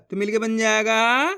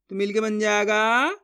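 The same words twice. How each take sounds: The two takes are said the same way.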